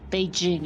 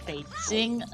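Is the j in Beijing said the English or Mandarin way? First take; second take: English; Mandarin. First: The j is a soft English j sound. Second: The j has a slight ts-like sound. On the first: The speaker calls it wrong. "in English you would Beijing is is usually how I hear it pronounced" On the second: The speaker calls it right. "it has a bit of a T S sound to it as well"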